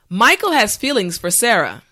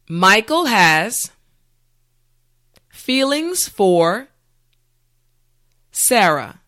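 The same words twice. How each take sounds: First: The sentence is said at natural speed. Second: The sentence is said slowly and carefully. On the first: "the last time at a regular pace" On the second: "this time repeat after me"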